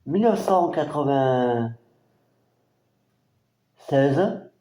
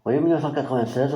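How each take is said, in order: First: Very slow, drawn-out year; lent. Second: Rapide. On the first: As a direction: stretch the year out while reading it. Date drawn out while reading. (année traînée très lentement) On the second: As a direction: rattle the year off quickly. Quick confirmation of the year. (confirmation rapide de l'année) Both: Real, not acted.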